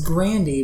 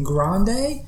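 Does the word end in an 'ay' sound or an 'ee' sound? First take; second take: ee; ay. First: The word ends in an 'ee' sound. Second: The word ends in an 'ay' sound. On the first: The word is read phonetically by someone unfamiliar with it. The speaker calls it wrong. "the next drink he says is Grandy" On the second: The word is said as it is normally pronounced. The speaker calls it right. "he's supposed to be saying Grande"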